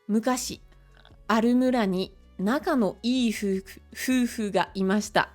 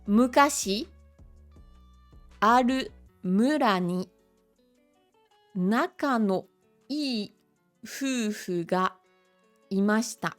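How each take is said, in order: First: The sentence is read at a faster pace. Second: The sentence is read at a slower pace.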